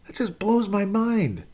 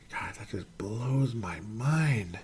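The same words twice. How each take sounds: First: Slow, much higher voiced disbelief; incredulous high repeat. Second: Slow, stunned whisper; awed whisper. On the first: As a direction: say it again, pitched way up in amazement. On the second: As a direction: breathe it out in disbelief. Stunned by a career stat. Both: Real, not acted.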